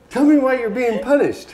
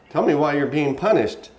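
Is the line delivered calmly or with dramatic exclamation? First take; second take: dramatic; calm. First: It is delivered dramatically, like an exclamation. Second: It is delivered calmly, without exclamation.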